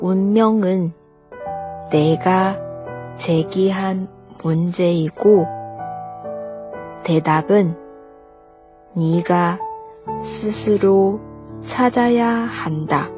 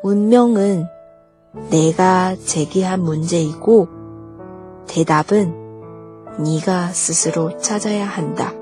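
First: The sentence is said slowly. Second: The sentence is said at normal speed.

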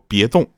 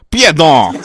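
First: It is said in standard Mandarin. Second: It is said in a Northeastern accent. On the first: "用普通话说" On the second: "用东北话说"

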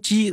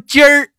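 First: The word is said plainly, without an r ending. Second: The word ends with an r-colored erhua sound. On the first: The speaker calls it wrong. "你说干说鸡，我就感觉就好像对不起官方" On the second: The speaker calls it right. "你说鸡儿就没毛病了"

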